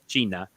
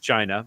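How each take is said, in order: First: The name is said with its local pronunciation. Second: The name is said with an English pronunciation. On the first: "but it's called China" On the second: "if you pronounce it in English it's China"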